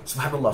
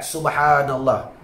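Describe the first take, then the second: First: The vowel is clipped short and said quickly. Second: The vowel is held for two beats. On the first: "Tak betul dia kata" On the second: "Kan perkataan tu dua harakat"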